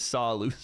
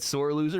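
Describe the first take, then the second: First: SAW in place of sore, no R; dropped R. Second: Said in the usual way. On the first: Retold or imitated. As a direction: lose the R so sore becomes "saw". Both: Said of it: "and it says".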